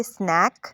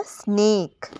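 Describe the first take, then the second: First: स्नैक with an open ऐ vowel, the wrong reading. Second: स्नेक with a long closed ए, as in snake; correct vowel. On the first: Teacher showing the wrong reading of snake. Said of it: "अगर ई ना होता तो हम पढ़ते". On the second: Teacher giving the right reading after the wrong one. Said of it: "तो अब ये हो गया स्नेक". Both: Shown as a demonstration.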